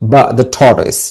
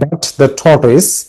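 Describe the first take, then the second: First: The t at the end of 'but' is dropped. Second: The t at the end of 'but' is pronounced. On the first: "যারা native speaker তারা এটা কিভাবে উচ্চারণ করে জানো?" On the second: "আমরা বলি না বাট দ্য টর্টয়েস"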